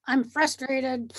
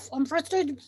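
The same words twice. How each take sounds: First: Slow, half-crying half-laughing I'm frustrated; mock sob, laughing. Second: Said in the usual way. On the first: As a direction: whimper it through a laugh, hammed up. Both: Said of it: "So you say".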